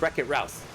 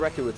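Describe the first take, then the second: First: The last word has an 'ow' vowel. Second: The last word has an 'oo' vowel. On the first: The speaker calls it right. "it's Wreck-It Routh" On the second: The speaker calls it wrong. "I mispronounced that. It's not Wreck-It Ruth"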